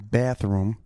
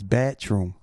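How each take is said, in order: First: The 'th' in 'bath' is clearly heard. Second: The 'bath' part sounds almost like 'batch'. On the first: "in New Jersey, they say bathroom. ... You hear the H" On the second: "in South Brooklyn, it's bathroom"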